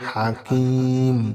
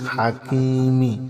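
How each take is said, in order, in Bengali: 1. শব্দটি ম ধ্বনি দিয়ে শেষ হয়। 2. শব্দটি ছোট ই-কার দিয়ে শেষ হয়। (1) "থামলে হবে হাকিম" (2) "হাকিমিম জের মি"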